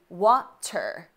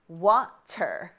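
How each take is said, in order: Both takes have the same delivery.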